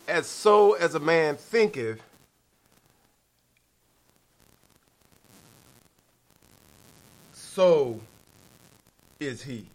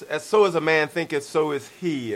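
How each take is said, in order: First: There is a clear pause after 'thinketh'. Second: It runs on without a marked pause. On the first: The phrase carries its truer, deeper meaning. The speaker calls it right. "It should be a little bit of a pause there" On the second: Your thoughts are simply what you are. The speaker calls it wrong. "We often quote a scripture that says"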